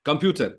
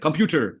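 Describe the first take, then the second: First: It is said in an Indian English accent. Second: It is said in an American English accent. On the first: "ये तो हो गया Indian" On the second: "अब US accent"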